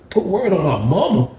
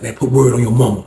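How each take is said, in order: First: High-pitched, disbelieving question; incredulous echo. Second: Said in the usual way. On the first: Retold or imitated. Challenged by Leroy to swear, high incredulous echo. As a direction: throw the words back, pitched way up.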